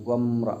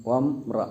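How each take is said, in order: The two takes are said the same way.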